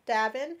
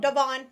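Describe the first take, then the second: First: "Davin" said with a short "i", as DAV-in; mispronounced name. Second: "Devon" said as duh-VON, stress on the end; corrected name. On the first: Real, not acted. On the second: Shown as a demonstration.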